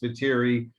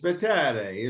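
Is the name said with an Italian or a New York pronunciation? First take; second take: New York; Italian. First: The name is said with a New York pronunciation. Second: The name is said with an Italian pronunciation. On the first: This is how it is said in Queens. "If you're in Queens" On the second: This is how it is said in Italy. "if you're in Italy"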